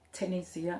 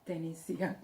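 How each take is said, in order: First: The name begins with a clear T sound. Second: The name begins with a sound between D and T. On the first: The speaker calls it wrong. "not Tenesia" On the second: The speaker calls it right. "It's Denisia"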